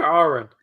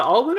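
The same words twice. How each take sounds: First: "Arwen" said with an R in the middle; "Arwen", R before the W; alternative pronunciation. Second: "Alwyn" said with an L in the middle; "Alwyn", L in place of R; mistaken pronunciation. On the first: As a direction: say "Arwen" as AR-win, no L. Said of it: "Is it Alwyn or Arwen?". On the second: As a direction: say "Alwyn" as AL-win, with an L. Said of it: "we've been saying Alwyn". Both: Shown as a demonstration.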